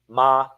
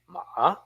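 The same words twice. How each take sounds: First: The pitch stays level with no tone. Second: The pitch starts low, then goes up. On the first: "Even with no tone to fetter, it lives" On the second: "start from the bottom, then go up"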